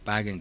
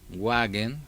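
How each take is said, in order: First: The word begins with a v sound. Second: The word begins with a w sound. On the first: This is how Germans actually say it. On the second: This is how the word is written.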